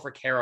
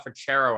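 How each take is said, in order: First: The middle consonant is a k sound. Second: The middle consonant is a ch sound. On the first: The speaker calls it wrong. "the two different ways people try to pronounce it" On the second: The speaker calls it right. "It's uh Frachero actually"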